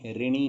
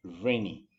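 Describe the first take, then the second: First: ऋणी with a plain "ri" start; wrong "रि" pronunciation. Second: ऋणी with a held, vibrating r; tongue pulled back on the ऋ of ऋणी; correct ऋ pronunciation. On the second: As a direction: say ऋणी as "rrr-ni". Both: Shown as a demonstration. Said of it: "ऋणी नहीं होता".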